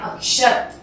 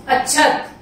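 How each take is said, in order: First: "अक्षत" said as akshat, with k plus sh; correct ksh sound. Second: "अक्षत" said as achchhat, chh replacing ksh; colloquial chh sound. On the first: Teacher gives pupils the right word, "अक्षत" with ksh. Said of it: "उसको बोलेंगे हम". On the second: Teacher shows pupils the everyday form, "अक्षत" as achchhat. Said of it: "उसको बोलेंगे हम अक्षत". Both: Shown as a demonstration.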